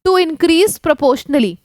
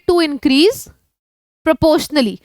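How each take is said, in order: First: It is said straight through without a pause. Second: It has a sudden pause in the middle.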